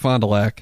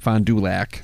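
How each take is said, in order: First: The name is run together as one word. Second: The name is said as separate words. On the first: "You say it all in like one thing, like it's one word" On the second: "It's actually"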